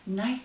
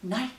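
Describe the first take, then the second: No difference in how they are said.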